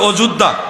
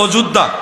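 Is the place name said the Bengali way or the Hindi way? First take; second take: Bengali; Bengali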